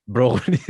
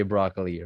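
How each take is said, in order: First: Punchy Filipino-accented "brokoli". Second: "broccoli" said the American way; American r, "brah-kuh-lee" for broccoli; American pronunciation. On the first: Host amused, copying guest's version, Filipino accent. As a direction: echo broccoli with Filipino o's. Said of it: "say that with a Filipino accent". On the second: Host offering an example word, American pronunciation. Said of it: "How would you say that with a Filipino". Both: Shown as a demonstration.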